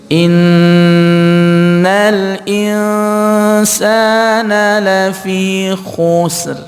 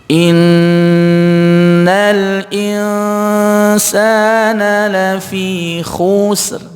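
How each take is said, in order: The two takes are said the same way.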